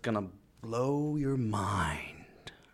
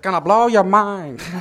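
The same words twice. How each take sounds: First: The phrase is delivered dramatically for effect. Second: The phrase is delivered without added drama. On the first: "I said it like that for more effect" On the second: "We could have tried others"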